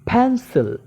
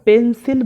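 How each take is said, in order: First: The first p is said with a puff of air. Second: The first p is said without a puff of air. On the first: The speaker calls it right. "আমাকে বলতে হবে ফ্যান্সিল" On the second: The speaker calls it wrong. "এটা ভুল হয়ে যাবে"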